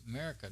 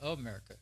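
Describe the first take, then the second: First: The word is slurred, with syllables dropped. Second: The word is said in full, all syllables. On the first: The speaker calls it right. "it's America now. We used to say it that way just because the way we slur words in Texas" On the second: The speaker calls it wrong. "It's not America"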